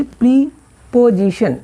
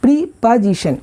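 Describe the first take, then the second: First: प्रीपोजिशन with a full o, slow and drawn out; the mistaken way, pri-po-zi-shun; wrong pronunciation. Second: प्रीपोजिशन with a reduced middle vowel, pri-puh-zi-shun; the right way, short neutral o; correct pronunciation. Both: Shown as a demonstration. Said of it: "नहीं".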